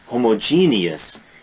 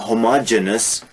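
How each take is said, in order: First: The ending is said as a full '-geneous'. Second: The ending is said as a short '-genous'. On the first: The speaker calls it right. "no, homogeneous, heterogeneous, E O U S" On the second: The speaker calls it wrong. "often mispronounced"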